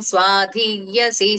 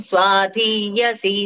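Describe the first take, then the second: Both takes have the same delivery.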